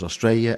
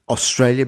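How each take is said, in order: First: One of the middle consonants is dropped. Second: All the middle consonants are clearly pronounced.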